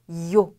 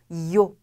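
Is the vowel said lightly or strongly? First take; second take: strongly; strongly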